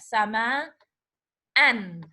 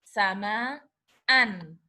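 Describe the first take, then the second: Both takes have the same delivery.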